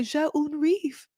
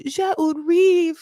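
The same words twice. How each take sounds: First: High, slow French line; mimicked husband. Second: Higher, louder, slow French declaration; mimicked husband, emphatic. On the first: Husband offering his French excuse, mimicked and drawn out. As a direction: stretch out the French in a raised voice. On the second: Husband insisting on his French line, mimicked emphatically. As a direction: proclaim the French line slowly and loudly. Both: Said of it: "He's just like".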